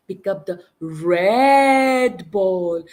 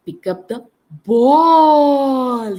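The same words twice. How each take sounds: First: Red stretched out slow and firm; slow emphasis on red for the child; stress on red. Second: Ball punched high and loud; emphasize ball for the child; stress on ball. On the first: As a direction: lean on red, very slowly. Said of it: "we can emphasize and stress that word". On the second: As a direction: hit the word ball hard. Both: Shown as a demonstration.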